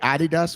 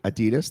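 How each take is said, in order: First: It is said with a British pronunciation. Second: It is said with an American pronunciation. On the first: "They say Adidas" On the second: "we say Adidas"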